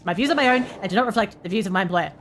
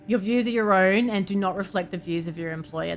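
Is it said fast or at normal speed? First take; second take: fast; normal speed. First: It is said very fast, like legal terms. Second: It is said at normal speed.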